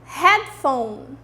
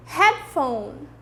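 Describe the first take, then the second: No difference in how they are said.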